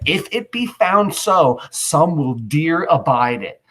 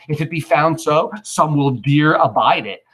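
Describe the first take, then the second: First: Slow weighty reading. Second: Said in the usual way. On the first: Shown as a demonstration. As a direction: draw the line out with gravity. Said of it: "He said". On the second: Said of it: "First plebeian".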